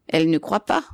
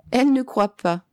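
First: "Elle ne croit pas" as a question, rising on "pas"; questioning echo. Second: "Elle" starts high, falling through to "pas"; emphatic restatement. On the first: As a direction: echo it back asking, lift "pas" at the end. Old man echoes it, questioning. (question, voix qui monte sur « pas ») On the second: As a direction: restate it firmly, high on "Elle", closing downward. Old man repeats it as statement. (affirmation, « Elle » haut puis descente sur « pas ») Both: A narrator's reading.

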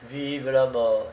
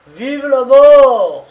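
First: Said in the usual way. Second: Huge, high-pitched crazed cry, drawn out; mad thundering shout. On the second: A narrator's reading. Condemned man crying out before the firing squad, mad thundering shout. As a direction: bellow it like a madman, long and thunderous. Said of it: "il cria d'une voix folle, d'une voix tonnante".

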